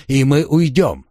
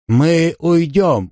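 First: Said in the usual way. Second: Slow, raised placating voice; slow deliberate. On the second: A narrator's reading. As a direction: stretch out the words to buy time. Bargaining with bandit.

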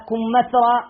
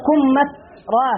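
First: كمثرى said slowly, as in plain reading; a careful but ordinary كمثرى. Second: كمثرى drawn out very slowly, each syllable separate; كمثرى sounded out syllable by syllable. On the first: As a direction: say كمثرى at an easy, unhurried pace. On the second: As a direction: spell out كمثرى slowly for the class. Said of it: "كمث-، كم". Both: Shown as a demonstration.

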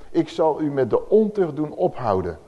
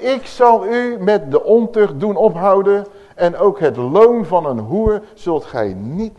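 First: Said in the usual way. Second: Louder, higher proclamation; emphatic repeat. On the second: Shown as a demonstration. Preacher repeats the verse to the congregation, louder and higher. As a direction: proclaim it again with force. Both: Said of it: "Nog een keertje".

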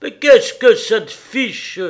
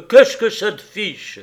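First: Slow, much louder and higher, heavy; louder, slower heavy retort; heavy repetition. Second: Sharp, loud snap back; loud annoyed husband; irritated retort. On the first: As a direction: hammer the question home slowly. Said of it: "il répéta lourdement". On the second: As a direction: throw the question back at her. Husband snaps back at wife. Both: Acted.

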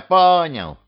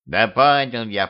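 First: "понял" thrown out higher and louder; "понял" snapped back, fed up; exasperated repeat. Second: Said in the usual way. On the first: Acted. Ghost in the wardrobe giving in to Petrovich, exasperated.

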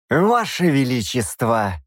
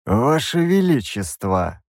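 First: Slow, outraged appeal; protest, scandalized; indignant protest. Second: Slow, cold bishop's address; a chilly, measured rebuke; cold hiss. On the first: Bishop indignantly turns to the king who let the demon go. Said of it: "возмущённо обернулся к нему епископ". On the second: Bishop icily addresses the king, slow and cold. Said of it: "холодно прошипел он". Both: A narrator's reading.

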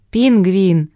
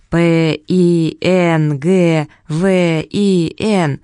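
First: Said in the usual way. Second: П И Н Г В И Н, each letter slow and separate; spelled out letter by letter. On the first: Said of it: "сказал мистер Поппер". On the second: Shown as a demonstration. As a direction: spell П И Н Г В И Н out slowly. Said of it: "произнести по буквам".

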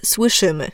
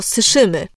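First: "słyszymy" with the ł clearly sounded after s; full Ł. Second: "syszymy" without the ł after s; swallowed Ł. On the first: Diction coach showing the careful form, ł pronounced in "słyszymy". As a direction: articulate the sł cluster in "słyszymy". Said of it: "syszymy zamiast słyszymy". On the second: Diction coach demonstrating simplification, ł left out in "syszymy". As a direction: drop the ł, saying "syszymy". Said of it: "Albo syszymy zamiast słyszymy". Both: Shown as a demonstration.

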